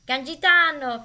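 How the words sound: The name is said with an Italian pronunciation.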